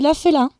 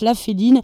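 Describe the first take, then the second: First: The name ends with a nasal vowel. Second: The name ends with a clear 'een' sound. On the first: The speaker calls it right. "ça se dit La Félin" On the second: The speaker calls it wrong. "qui je suppose se prononce La Féline"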